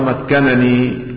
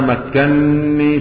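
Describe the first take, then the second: First: The two n sounds are pronounced separately. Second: The two n sounds merge into one doubled n. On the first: This is the reading of one reader alone. "يقرأها مكنني بفك الإدغام" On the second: This is the reading of all the other readers. "بالإدغام"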